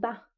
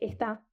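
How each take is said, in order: First: The first syllable is dropped, leaving one syllable. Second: The word is said in full, two syllables.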